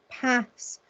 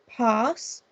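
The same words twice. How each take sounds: First: The vowel is a short flat A sound. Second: The vowel is a long open 'ah' sound. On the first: "I just read them with using a short A" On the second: "a long A that sounds like the phoneme R"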